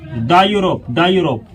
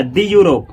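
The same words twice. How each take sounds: First: "द Europe" said as duh Europe; short open vowel in "द" before "Europe"; right "duh". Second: "दी Europe" said as dee Europe; long ee in "दी" before "Europe"; wrong "dee". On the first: Teacher gives the correct reading, the pronounced duh. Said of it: "इसको आप क्या पढ़ेंगे?". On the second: Teacher shows the wrong reading, the pronounced dee. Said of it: "इसको ये नहीं पढ़ा जाएगा". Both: Shown as a demonstration.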